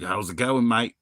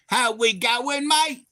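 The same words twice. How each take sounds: First: Understated imitation of an Aussie passer-by; lightly voiced Australian accent. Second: Very high, drawn-out Aussie twang; hammed-up Australian greeting, stretched and squealed; mock the Aussie greeting in a slow, high voice; mock Aussie accent. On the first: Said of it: "he's like". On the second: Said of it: "And I was like".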